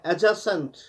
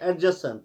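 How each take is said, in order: First: The d sound is left silent. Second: The d sound is clearly pronounced. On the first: The speaker calls it right. "इसमें डी silent रहता है" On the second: The speaker calls it wrong. "हम पढ़ते हैं एडजस्टेंट, वो गलत है"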